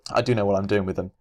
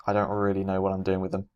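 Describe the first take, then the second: First: The word do pressed harder; stress on do. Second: Said in the usual way. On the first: Real, not acted. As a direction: lean on do to correct yourself. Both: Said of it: "Well, I say that".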